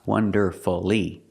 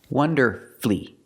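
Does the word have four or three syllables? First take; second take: four; three. First: The word is said with four syllables. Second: The word is said with three syllables. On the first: The speaker calls it wrong. "It's not wonderfully. We don't make it four" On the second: The speaker calls it right. "it changes to three syllables"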